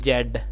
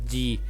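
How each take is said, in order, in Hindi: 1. यह अक्षर 'bed' के साथ तुक मिलाता है। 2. यह अक्षर 'see' के साथ तुक मिलाता है। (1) "Z is British English is pronounced Jed" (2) "In American English, Z is pronounced G"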